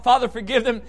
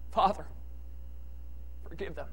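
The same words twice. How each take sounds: First: Said in the usual way. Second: Soft and low, barely above a breath; a quiet forgiving murmur; quiet, gentle plea. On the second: Retold or imitated. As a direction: speak it gently, not crying out. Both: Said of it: "It doesn't say he cried out".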